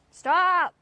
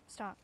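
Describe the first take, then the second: First: High, loud, drawn-out shout; shouted command. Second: Said in the usual way. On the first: Real, not acted. Owner to misbehaving Beetle, shouted command. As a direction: shout it to make the animal quit.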